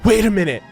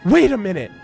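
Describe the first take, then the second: No difference in how they are said.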